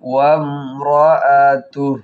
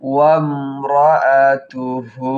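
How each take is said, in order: First: The word ends on a bare h sound. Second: The word ends on a lengthened u vowel. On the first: The reciter stops at this word. "এখানে যদি ওয়াকফ করি তাহলে হার উপরে সাকিন পড়বে" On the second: The reciter continues into the next words. "আর যদি ওয়াকফ না করি তাহলে একেবারে মিলিয়ে যাব হা হার উপরে পেশ আছে উল্টো পেশ এখানে একালিপ টান দিব"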